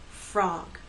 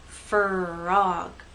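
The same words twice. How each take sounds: First: The F and R blend into one syllable. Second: The F and R split into two syllables. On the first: The speaker calls it right. "They blend together and go into the next vowel sound" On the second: The speaker calls it wrong. "if you go too slowly, two syllables"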